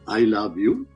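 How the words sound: The voice rises at the end, like a question.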